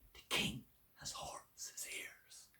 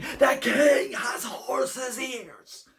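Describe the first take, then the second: First: It is a soft whisper. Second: It is a very loud whisper.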